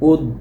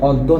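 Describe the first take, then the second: First: The first vowel is a closed 'o' sound. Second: The first vowel is an open 'aw' sound. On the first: The speaker calls it right. "ওই অটা ও হয়ে যায়" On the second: The speaker calls it wrong. "এটা অদ্য না"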